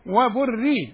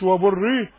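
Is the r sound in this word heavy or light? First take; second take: light; heavy. First: The r sound is light and thin. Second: The r sound is heavy and full. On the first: The speaker calls it right. "الرأد هيه ترقق قوي" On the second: The speaker calls it wrong. "مش"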